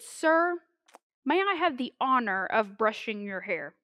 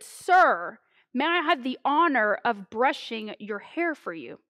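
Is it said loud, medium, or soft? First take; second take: soft; medium. First: It is said at a soft, normal volume. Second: It is said somewhat louder than normal.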